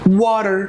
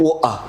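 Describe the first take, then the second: First: It is spoken in an American accent. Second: It is spoken in a British accent. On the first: "هروح للامريكان اكسنت" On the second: "البريتش بيبل بيقولوا عليها"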